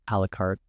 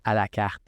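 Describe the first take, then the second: First: It is said with an English accent. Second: It is said with a French accent.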